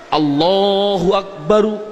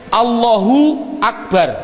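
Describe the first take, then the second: First: The word ends with an added u vowel. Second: The word ends on the r sound. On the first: The full grammatical ending is pronounced. The speaker calls it wrong. "sah, karena nakunya seperti itu" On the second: The speaker pauses at the end of the phrase. The speaker calls it right. "Karena wakof"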